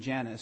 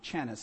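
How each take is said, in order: First: The name begins with a j sound. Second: The name begins with a ch sound. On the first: This is the name as it really is. The speaker calls it right. "which was her name" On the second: This is how someone else mispronounced the name. The speaker calls it wrong. "That was the way she pronounced it"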